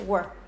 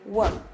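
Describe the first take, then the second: First: The words are squeezed together into one syllable. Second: The same.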